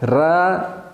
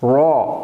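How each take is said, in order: First: The r sound is thin and light. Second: The r sound is thick and heavy. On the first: The speaker calls it wrong. "र बारीक नहीं पढ़ेंगे" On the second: The speaker calls it right. "रौ मोटा"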